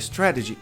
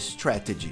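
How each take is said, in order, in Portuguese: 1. O t do meio é um som suave, parecido com um r batido. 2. O t do meio é um som de t claro. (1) "Tá difícil falar strategy?" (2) "Fale strategy. Tá certo"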